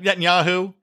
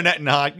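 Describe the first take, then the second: First: "Netanyahu" fixed with every syllable, net-yah-hoo; careful full name. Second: Said in the usual way. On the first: Shown as a demonstration. Podcaster correcting himself, careful full pronunciation.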